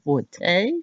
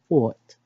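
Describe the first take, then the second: First: The word is said with two syllables. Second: The word is said with one syllable. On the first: The speaker calls it wrong. "the incorrect pronunciation sounds so fancy" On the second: The speaker calls it right. "how to actually say it is fort"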